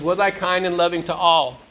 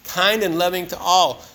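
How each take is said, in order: First: Said in the usual way. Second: "Kind and loving to all" said slowly, each word weighed; repeating the daily review line slowly so it lands; slow emphasis. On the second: Shown as a demonstration.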